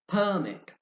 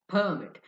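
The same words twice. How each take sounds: Both takes have the same delivery.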